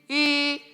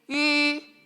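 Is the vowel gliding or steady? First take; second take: steady; steady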